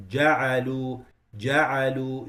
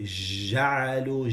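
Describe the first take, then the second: First: Ja'alu with a tight, hard j; firm jim. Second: Ja'alu with a loose zh sound; slow ja'alu, j softened to zh; soft wrong jim. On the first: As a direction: press the j in Ja'alu firmly. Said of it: "It's a shadid letter". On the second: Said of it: "You can't say ja'alu". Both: Shown as a demonstration.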